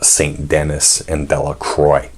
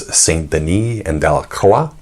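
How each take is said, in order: First: The names are said with an English pronunciation. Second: The names are said with a French pronunciation. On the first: This is how the descendants say the names now. "eventually became anglicized" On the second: This is the original form of the names. "their names began life as"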